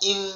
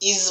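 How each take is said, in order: First: The final consonant is a soft th sound. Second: The final consonant is a buzzing z sound. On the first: The speaker calls it right. "ইজ বলতে হবে, পাতলা করতে হবে, জিহ্বার আগা সামনের উপরের দুই দাঁতের আগার সঙ্গে লাগাতে হবে" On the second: The speaker calls it wrong. "ইজ বলা যাবে না"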